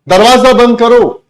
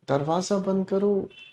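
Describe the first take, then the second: First: It is said as a firm command. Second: It is said as a polite request. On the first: It is an order. "बिल्कुल ठीक कहा, order है।" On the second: It is a request. "ये request है।"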